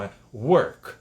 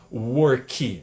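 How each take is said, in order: First: The final K is muted. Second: The final K is fully released. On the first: The speaker calls it right. "no final é um K mudo" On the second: The speaker calls it wrong. "não é que no final, work, não"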